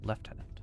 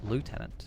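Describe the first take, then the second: First: It is said with a British pronunciation. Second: It is said with an American pronunciation.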